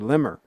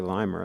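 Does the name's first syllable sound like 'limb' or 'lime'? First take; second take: limb; lime. First: The first syllable rhymes with 'him'. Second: The first syllable rhymes with 'time'. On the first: The speaker calls it right. "I should say Limmer" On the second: The speaker calls it wrong. "I shouldn't say Limer"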